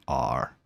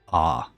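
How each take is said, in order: First: It is said with a closed mouth. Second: It is said with a very open mouth.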